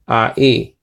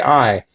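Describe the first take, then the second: First: The two vowels are said as separate sounds. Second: The two vowels merge into one gliding sound. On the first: The speaker calls it right. "not as a diphthong, but as separate um, letters" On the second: The speaker calls it wrong. "don't say I"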